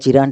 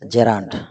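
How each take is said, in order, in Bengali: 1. প্রথম স্বরধ্বনিটি 'ee' এর মতো শোনায়। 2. প্রথম স্বরধ্বনিটি 'eh' এর মতো শোনায়। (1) "আমরা অনেকেই জেরানকে জিরান্ড হিসেবে উচ্চারণ করে থাকি" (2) "তবে সঠিক উচ্চারণ হচ্ছে জেরান্ড"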